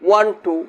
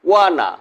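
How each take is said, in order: First: Both words are said fully and separately. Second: The words blend into one short reduced word. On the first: "পূর্ণরূপ" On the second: "assimilation"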